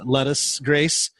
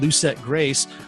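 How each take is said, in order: First: The first word sounds like 'lettuce'. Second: The first word sounds like 'loo-set'.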